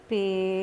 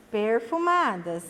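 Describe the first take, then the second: First: "perfumadas" as per, fu, ma, das with long pauses; long gaps between the syllables of "perfumadas". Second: Said in the usual way. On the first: Shown as a demonstration. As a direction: dictate "perfumadas" one syllable at a time. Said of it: "Nós vamos separar as sílabas". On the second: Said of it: "Qual é a outra palavrinha".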